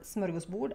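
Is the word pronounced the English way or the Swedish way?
Swedish. It is pronounced with a Swedish pronunciation.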